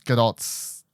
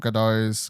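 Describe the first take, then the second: First: The final T of the name is clearly pronounced. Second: The final T of the name is silent. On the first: The speaker calls it right. "you got to say the, the T, apparently" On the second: The speaker calls it wrong. "I've been saying it wrong for years"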